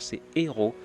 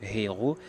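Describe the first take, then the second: First: The word starts directly on the vowel. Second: An h sound is breathed before the vowel. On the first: The speaker calls it right. "C'est pas comme ça, c'est héros" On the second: The speaker calls it wrong. "faire sortir le son de la lettre H en disant héros"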